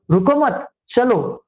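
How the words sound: The pause comes after the second word. Do not stop, go ahead.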